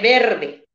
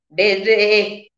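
First: Every sound in the word is said once. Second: One sound in the word is said twice. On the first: The speaker calls it right. "en lugar de verde" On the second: The speaker calls it wrong. "cuando pronuncia un fonema doblemente"

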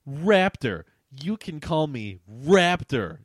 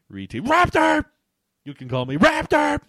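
First: It is read at a normal speaking volume. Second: It is shouted loudly, like all capitals.

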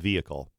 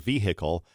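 First: The middle H sound is nearly silent. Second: The middle H sound is clearly pronounced. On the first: It sounds refined and dignified. The speaker calls it right. "The H is almost silent" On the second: It sounds rural and unrefined. The speaker calls it wrong. "which to me is a little bit hillbilly"

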